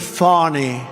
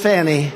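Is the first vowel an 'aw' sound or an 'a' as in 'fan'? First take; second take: aw; fan. First: The first vowel is an 'aw' sound. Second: The first vowel is 'a' as in 'fan'. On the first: This is how the name's owner says it. The speaker calls it wrong. "She pronounces it Fawny. Faw" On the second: This is how the speaker prefers to say it. The speaker calls it right. "To me, it's Fannie"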